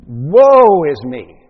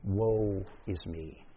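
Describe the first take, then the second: First: Loud, drawn-out cry of woe; Isaiah's woeful cry. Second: Low, slow, hushed despair. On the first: Preacher voicing the prophet's response to the scene, loud woeful cry. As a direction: wail it out slowly at full volume. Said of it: "Isaiah's response to seeing this magnificent scene". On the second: Preacher showing that woe conveys despair, quiet and despairing. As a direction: sink into a soft, hopeless lament. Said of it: "it conveys the notion of despair". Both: Acted.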